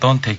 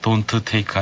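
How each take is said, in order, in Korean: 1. 두 t 소리가 합쳐져 하나가 됩니다. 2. t 소리를 두 번, 따로 발음합니다. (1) "이게 겹치면 한 번만 발음하거든요" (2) "아니고"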